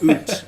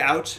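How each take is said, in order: First: It is said with a Canadian vowel. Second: It is said with an American vowel. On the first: "It's out. I'm Canadian" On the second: "Americans say out"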